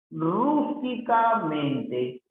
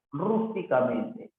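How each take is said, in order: First: "rústicamente" slow, rising high on "rús"; stretched syllables. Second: Said in the usual way. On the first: Shown as a demonstration. Teacher sounds out word for accent. (alargando las sílabas, despacio)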